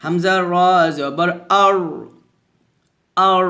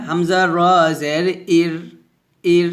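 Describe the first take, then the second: First: Thick, rounded r in আর; আর with a dark rolled ending; heavy r. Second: Light, spread r in ইর; ইর with a light front ending; thin r. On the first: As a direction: fill the mouth on the র of আর. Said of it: "র সাকিন মোটা হয়". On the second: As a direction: keep the র of ইর thin. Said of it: "র সাকিন পাতলা হয়". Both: Shown as a demonstration.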